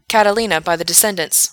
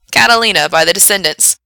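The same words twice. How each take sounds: First: Said in the usual way. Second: Loud, projected song title; radio DJ announcing. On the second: Acted. Frank introduces the requested song, loud DJ announcement. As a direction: announce it to the listeners.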